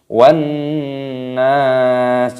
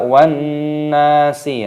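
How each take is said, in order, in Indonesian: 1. Kata terakhir berakhir pada konsonan mati. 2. Kata terakhir berakhir dengan vokal tambahan. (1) "dimatikan pada huruf sinnya di sini" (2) "Jadi jangan dibaca wan nasi, ya, tidak boleh"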